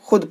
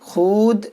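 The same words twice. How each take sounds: First: The vowel is short, like u. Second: The vowel is long, like oo. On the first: The speaker calls it right. "पढ़ते हैं" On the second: The speaker calls it wrong. "इस तरह नहीं पढ़ते हैं"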